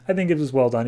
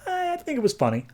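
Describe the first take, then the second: First: Said in the usual way. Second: I said way higher, then falling; high pitch on "I"; higher first take. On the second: Shown as a demonstration. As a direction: say "I think it was funny" with a sharp high pitch jump on "I".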